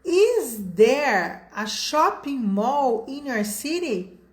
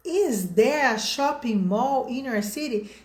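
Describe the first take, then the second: First: Slow model sentence. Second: Said in the usual way. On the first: Shown as a demonstration. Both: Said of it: "Então, olha só".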